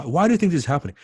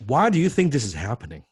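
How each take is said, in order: First: Louder, pressing on do; punchier repeat. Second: Said in the usual way. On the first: Shown as a demonstration. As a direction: push the client for the real reason. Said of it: "this tells you the why". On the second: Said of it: "Oh, this is good".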